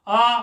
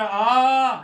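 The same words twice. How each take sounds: First: The vowel is held for one short beat. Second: The vowel is held for three beats.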